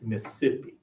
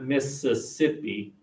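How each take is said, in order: First: It is said Southern style, dropping a syllable. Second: It is said in a standard, full-syllable way.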